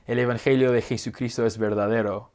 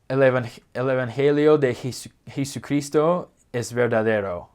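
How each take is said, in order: First: It is said with a fluent Spanish accent. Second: It is said with a clunky American accent. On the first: The speaker calls it right. "A way to say that the gospel of Jesus Christ is true would be" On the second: The speaker calls it wrong. "with more of an American accent"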